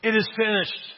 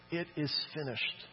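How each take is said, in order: First: Solemn declaration. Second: Said in the usual way. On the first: Retold or imitated. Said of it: "Jesus said". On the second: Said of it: "this is where it gets really interesting".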